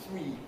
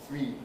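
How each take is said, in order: Both takes have the same delivery.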